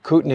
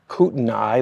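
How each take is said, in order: First: The name is pronounced unlike the way it's written. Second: The name is pronounced the way it looks written. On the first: The speaker calls it right. "trust us, we researched this. It's called Kootenai" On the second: The speaker calls it wrong. "That's what it looks like it's pronounced"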